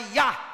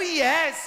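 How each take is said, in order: First: The word ends on an open vowel. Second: The word ends with a clear s sound. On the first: "ele falava errado. Ele falava ya" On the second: "até o yes"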